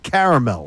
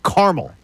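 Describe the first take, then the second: First: The word is said with all three syllables. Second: The middle syllable is dropped, giving two syllables.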